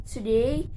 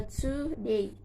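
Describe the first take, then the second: First: Said in the usual way. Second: "today" split into to and day; two separate beats on "today"; syllable by syllable. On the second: Shown as a demonstration. Teacher counting syllables for students, "today" broken in two. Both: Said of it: "two syllables".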